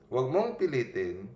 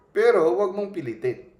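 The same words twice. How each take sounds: First: Said in the usual way. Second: Higher and louder, PILITIN pressed hard; emphatic warning. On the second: Shown as a demonstration. Preacher cautioning listeners not to force peace, emphatic. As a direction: warn them firmly not to force it.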